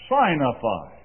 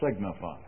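First: The first syllable sounds like 'sign'. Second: The first syllable sounds like 'sig'. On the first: The speaker calls it right. "Pronounce it signify. ... it's theologically correct. The word here means to make known by sign" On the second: The speaker calls it wrong. "Don't pronounce it signify"

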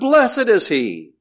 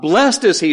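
First: Blessed is said with two syllables. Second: Blessed is said with one syllable. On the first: He is the blessed one, an adjective. The speaker calls it right. "but blessed is he" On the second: He is someone who receives a blessing. The speaker calls it wrong. "it's not blessed is he"

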